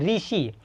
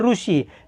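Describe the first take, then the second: First: The first syllable is pronounced ri. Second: The first syllable is pronounced ru. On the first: This is the Hindi reading. "Hindi में ऋषि बोलेंगे" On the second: This is the Marathi reading. "Marathi में"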